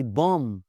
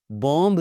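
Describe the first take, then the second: First: बॉम्ब ending on m; silent B. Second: बॉम्ब with a sounded final b; mispronounced B. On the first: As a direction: say बॉम्ब as bom. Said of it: "नहीं होता जी". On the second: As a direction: end बॉम्ब on an audible b. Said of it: "बॉम्ब नहीं होता जी". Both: Shown as a demonstration.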